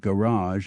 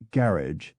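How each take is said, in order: First: It is said with a French-like pronunciation. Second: It is said with an anglicized pronunciation.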